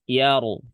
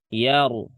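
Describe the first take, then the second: The two takes are said the same way.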